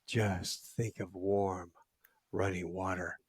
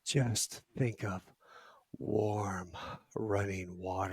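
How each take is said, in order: First: Slow, soft, soothing voice; calm him down, very slowly; soothing hush. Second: Slow, soft, soothing voice; calm him like a hypnotist, slowly; soothing hush. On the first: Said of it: "she goes". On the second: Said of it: "she said it just like that". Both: Retold or imitated.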